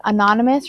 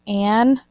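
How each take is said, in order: First: Said in the usual way. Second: "anonymous" in pieces as AN, ON-uh, MUS; broken apart. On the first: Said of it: "gonna have to break apart". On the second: Shown as a demonstration. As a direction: pause between the parts of "anonymous". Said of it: "you're gonna have to break apart".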